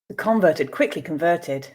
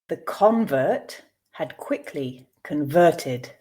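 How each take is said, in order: First: The sentence is read at a natural pace. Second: The sentence is read slowly. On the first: "two more times at a more natural pace" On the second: "I will read once slowly for you to grasp the meaning"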